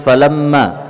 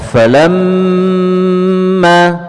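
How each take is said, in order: First: The m is cut short without a nasal hum. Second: The m is held long with a nasal hum. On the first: The speaker calls it wrong. "jangan langsung dibaca falamma" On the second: The speaker calls it right. "tapi ditahan sebentar"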